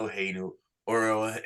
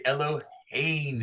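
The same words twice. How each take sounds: First: Eloheinu with stress on the wrong syllable; misplaced accent on Eloheinu. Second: Eloheinu with the stress on the last syllables; Eloheinu, accent near the end as the trope shows; correct stress. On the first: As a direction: say Eloheinu stressed on the first part, not the end. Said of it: "We don't say ... We say Eloheinu". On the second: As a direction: Eloheinu sung the Torah way. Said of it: "that's where the accent is, Eloheinu". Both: Shown as a demonstration.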